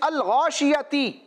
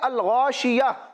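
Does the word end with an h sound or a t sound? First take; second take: t sound; h sound. First: The word ends with a t sound. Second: The word ends with an h sound. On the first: The reader continues without stopping. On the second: The reader stops on this word.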